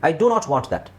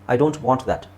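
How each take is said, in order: First: The sentence is said with strong emphasis. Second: The sentence is said softly, without force. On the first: The refusal is firm and insistent. "ಅದು ಒತ್ತಿ ಹೇಳ್ದಂಗೆ ಆಗುತ್ತೆ" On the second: The refusal is mild. "So ಇದು ಸ್ವಲ್ಪ ಸಾಫ್ಟಾಗಿ ಹೇಳ್ದಂಗೆ ಇರುತ್ತೆ"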